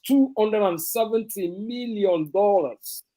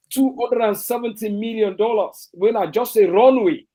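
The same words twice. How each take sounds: First: Said in the usual way. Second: The figure repeated higher and louder in disbelief; indignant stress on the price; emphatic repeat. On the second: Real, not acted. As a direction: hammer home "Two hundred and seventy million dollars". Repeating the cost in outrage.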